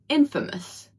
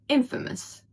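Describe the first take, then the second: Both takes have the same delivery.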